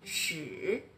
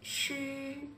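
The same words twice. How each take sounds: First: The pitch dips low then rises. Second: The pitch stays high and level. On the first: "Le troisième" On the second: "Le premier"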